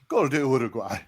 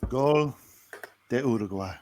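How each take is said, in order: First: It sounds pleading, as if negotiating. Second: It sounds calm and resigned. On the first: Maybe the goal can somehow be undone. "Then bargaining" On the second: The goal is a fact to live with. "And acceptance"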